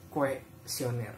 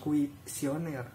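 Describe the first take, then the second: First: The first syllable is said as 'kue'. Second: The first syllable is said as 'kui'. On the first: The speaker calls it right. "Ternyata yang baku itu nah" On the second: The speaker calls it wrong. "Bukan kuisioner"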